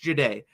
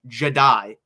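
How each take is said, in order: First: The name does not sound like Jedi. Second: The name sounds like the word Jedi. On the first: The speaker calls it right. "It's not Jedi. It's Jahdae" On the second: The speaker calls it wrong. "They mispronounced Jahdae Barron's name. Jedi"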